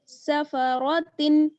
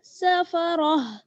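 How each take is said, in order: First: The word ends with a 'tin' sound. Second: The word ends with a soft 'h' sound. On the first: The reader keeps going into the next verse. "ता दो जेर तिन" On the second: The reader stops at the end of the verse. "अगर आप ठहरेंगी तो फिर किस तरह से हा के साथ बदल देंगी ता को"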